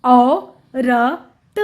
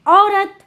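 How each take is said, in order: First: औ, र, त very slow and separate; sounding out. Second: Said in the usual way. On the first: Shown as a demonstration. Teacher showing how it is written, sound by sound. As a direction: split it with pauses: औ... र... त. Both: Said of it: "इस तरह से औरत लिखते हैं".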